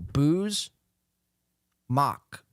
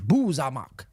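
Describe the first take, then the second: First: It is said as two syllables, no added vowel. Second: An extra vowel is inserted between the two parts. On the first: "very simple" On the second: "He adds like a, a vowel in there"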